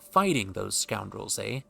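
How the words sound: The intonation is expressive, with marked pitch movement. The speaker calls it right.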